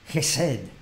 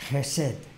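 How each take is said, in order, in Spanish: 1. Empieza con un sonido gutural áspero de garganta. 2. Empieza con un sonido gutural áspero de garganta.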